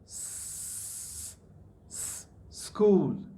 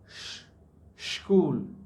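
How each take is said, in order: First: The word begins with a hissing s sound. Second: The word begins with a hushing sh sound. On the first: The speaker calls it right. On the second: The speaker calls it wrong. "not sh- school"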